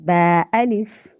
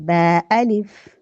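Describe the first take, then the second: No difference in how they are said.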